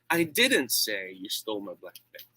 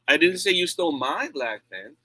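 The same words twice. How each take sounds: First: The stress falls on the word "say". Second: The stress falls on the word "my". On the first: It was expressed some other way, perhaps written. "I did not do that. Maybe I wrote it" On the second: The pen belonged to someone else.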